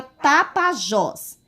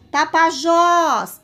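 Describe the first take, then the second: First: Said in the usual way. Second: "Tapajós" called out loud and high, last syllable drawn long; stressed last syllable called out. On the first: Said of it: "Qual é a sílaba que eu falo". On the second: Shown as a demonstration. Teacher calling the word to show its stressed syllable, "Tapajós" with a long loud "jós". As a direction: shout "Tapajós", stretching and punching the final "jós". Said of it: "Ó, vou gritar".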